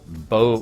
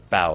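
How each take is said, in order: First: The vowel sounds like the one in 'go'. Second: The vowel sounds like the one in 'cow'. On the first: The speaker calls it wrong. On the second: The speaker calls it right.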